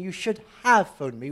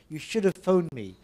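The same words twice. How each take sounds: First: The word 'have' is full and stressed. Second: The word 'have' is weak and unstressed. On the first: The speaker calls it wrong. "we're not saying you should have phoned me" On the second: The speaker calls it right. "The stress is not here, so have becomes weak"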